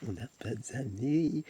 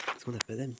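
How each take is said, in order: First: Slow, stretched-out whine over "d'amis"; slow playful wail; drawn-out mock lament. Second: Said in the usual way. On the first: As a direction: drag every word out, lamenting.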